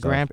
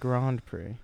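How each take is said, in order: First: It is pronounced in the plain American way. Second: It is pronounced in the international, French-like way. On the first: The speaker calls it wrong. "it's not the Grand Prix" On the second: The speaker calls it right. "For the international part"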